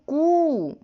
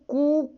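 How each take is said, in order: First: The vowel is drawn out at great length. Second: The vowel is held about twice as long. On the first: "क्रमशः है ह्रस्व दीर्घ और प्लुत" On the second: "क्रमशः है ह्रस्व दीर्घ और प्लुत"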